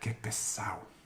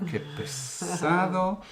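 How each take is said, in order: First: The d in pesado is dropped. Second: The d in pesado is clearly pronounced.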